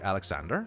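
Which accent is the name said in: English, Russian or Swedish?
English. It is said with an English accent.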